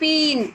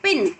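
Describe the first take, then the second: First: The vowel is drawn out and long. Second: The vowel is short and said quickly. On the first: The speaker calls it wrong. "ऐसे नहीं" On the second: The speaker calls it right. "जो छोटी मात्रा है उसका उच्चारण जल्दी करेंगे"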